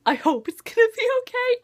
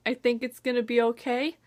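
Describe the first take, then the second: First: Anxious hope. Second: Said in the usual way. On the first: Real, not acted. Hopeful reassurance then doubt.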